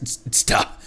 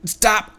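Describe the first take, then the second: First: A breathy whispered stop; whispered retake. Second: A barked stop, louder than usual; character voice. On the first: Streamer retrying the hoarder's line, whispered. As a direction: try the line again under the breath. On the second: Streamer voicing a treasure hoarder ordering a halt, loud. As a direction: snap it out as a guard. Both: Acted. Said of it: "What was my voice for these guys?".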